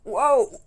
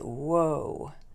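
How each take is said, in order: First: It sounds pained, like after an injury. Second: It sounds amazed and admiring.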